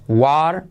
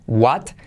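First: "what" ending in a soft tapped R. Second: "what" with its T pronounced; final T. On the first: («what» con R suave final) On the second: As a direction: end "what" on a T. («what» con la T final) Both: Shown as a demonstration. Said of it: "se convierte en R suave".

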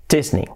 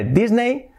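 First: "Disney" as "chís-ni", ending in i; English-style Disney. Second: "Disney" as "dis-nei"; the mistaken "Disney", rhyming with "ray"; Spanish-style Disney. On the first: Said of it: "pues es una I". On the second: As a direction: say "Disney" with a plain d and "ei" ending. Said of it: "Por lo tanto sería". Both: Shown as a demonstration.

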